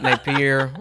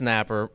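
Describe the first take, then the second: First: The name has an 'ee' sound before the end. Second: The name has no 'ee' sound before the end. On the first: This is the older family form of the name. "Napier was originally" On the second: This is the current family form of the name. "there is no I"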